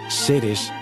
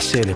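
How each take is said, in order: First: The final s sound is clearly pronounced. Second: The final s sound is dropped entirely.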